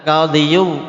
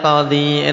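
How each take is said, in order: First: The word ends with an added 'yu' syllable. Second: The word ends on a long 'ee' vowel. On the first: The speaker calls it wrong. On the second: The speaker calls it right. "enak enggak?"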